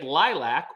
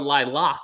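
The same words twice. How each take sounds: First: It is pronounced in a plain, everyday way. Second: It is pronounced in a fancy, posh-sounding way.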